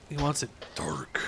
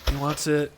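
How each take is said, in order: First: Hushed whisper to himself. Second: Said in the usual way. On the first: Real, not acted. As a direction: whisper it under your breath. Repeats the line in a whisper.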